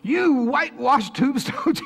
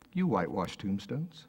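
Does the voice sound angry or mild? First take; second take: angry; mild. First: It is said in a fierce, angry tone. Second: It is said in a mild, gentle tone. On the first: The rebuke is given with righteous anger. The speaker calls it right. "I can just see the fire in his eyes" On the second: The rebuke is given without real anger. The speaker calls it wrong. "Is that the way you think it was?"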